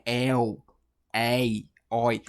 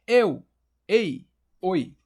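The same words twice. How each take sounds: First: EL, EI, OI with wide-open vowels, as ÉU, ÉI, ÓI; lower, separated EL, EI, OI, said ÉU, ÉI, ÓI; open diphthongs. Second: Closed EU, EI, OI, called out loud; sound-check call. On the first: Teacher showing open sounds, EL, EI, OI as ÉU, ÉI, ÓI. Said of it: "que é um ditongo aberto". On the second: Teacher imitating a microphone test, loud closed EU, EI, OI. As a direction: say EU, EI, OI with closed vowels, like testing a mic. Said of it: "Parece um teste de som". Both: Shown as a demonstration.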